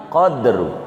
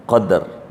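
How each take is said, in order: First: "qadru" with no vowel after the d, qad-ru; qadr with dal sukun. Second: "Qadar" with a clear a after the d, qa-dar; qadar with fathah on dal. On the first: Teacher to students, "qadru" with the dal silent. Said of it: "dalnya mati". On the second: Teacher to students, "Qadar" with the dal vowelled. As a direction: say "Qadar" as two open syllables, qa-dar. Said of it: "dalnya kudu fathah". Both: Shown as a demonstration.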